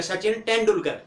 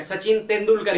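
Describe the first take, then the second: First: तेंदुलकर with hard retroflex T and D, as in English; तेंदुलकर with retroflex consonants; English-style pronunciation. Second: तेंदुलकर with dental consonants; Hindi pronunciation. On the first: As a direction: say तेंदुलकर the English way, tongue curled back. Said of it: "English में बोलेंगे क्या बोलेंगे". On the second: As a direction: say तेंदुलकर the Hindi way, tongue on the teeth. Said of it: "हम क्या बोलते हैं ... हिंदी में". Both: Shown as a demonstration.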